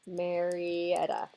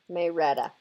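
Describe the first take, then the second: First: It is said with a general, non-local pronunciation. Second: It is said with the local Georgia pronunciation.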